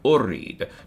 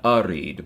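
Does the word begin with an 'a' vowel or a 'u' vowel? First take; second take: u; a. First: The first vowel is a rounded 'u' sound. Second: The first vowel is an open 'a' sound. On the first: The speaker calls it right. "going to use Dhamma on the first syllable" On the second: The speaker calls it wrong. "not arid"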